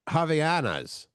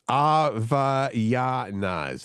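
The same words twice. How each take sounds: First: The word begins with an H sound. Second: The word begins without an H sound. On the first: The speaker calls it wrong. "I would say" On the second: The speaker calls it right. "The H is silent"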